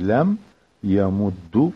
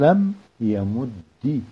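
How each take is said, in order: First: The last word ends in a u vowel. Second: The last word ends in an i vowel. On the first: "الضمة تبيجي" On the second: "أو الكسر"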